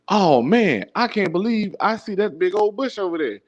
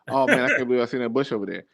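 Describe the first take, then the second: First: It is delivered in an exaggerated, theatrical way. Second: It is delivered in a relaxed, natural way.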